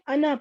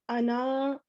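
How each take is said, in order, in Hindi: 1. अंतिम स्वर छोटा ही रखा जाता है। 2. अंतिम स्वर को लंबा खींचा जाता है। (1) "इसको हमने अना पढ़ना है" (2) "अना ऐसे नहीं पढ़ना। इसको टू काउंट्स जितना लंबा नहीं करना"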